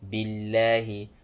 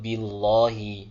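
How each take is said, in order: First: The L sound is light and thin. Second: The L sound is heavy and thick. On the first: The speaker calls it right. "you need to pronounce it with a light Lam" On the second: The speaker calls it wrong. "not billahi. No. Ugh, it's like you're trying to butcher the recitation on purpose"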